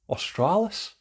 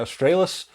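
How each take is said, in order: First: It is said in a put-on Australian accent. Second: It is said in the speaker's plain accent. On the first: "I'm terrible at accents" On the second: "over here we probably say"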